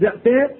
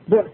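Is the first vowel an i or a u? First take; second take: i; u. First: The first vowel is a clear i. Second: The first vowel is a clear u. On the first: The person addressed did the selling. The speaker calls it wrong. "ولا يجوز الكاسر فلا تقول بعت" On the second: Someone else sold the person addressed. The speaker calls it right. "ضمه او الاشمام"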